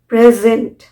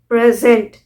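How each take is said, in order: First: The stress is on the last syllable. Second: The same.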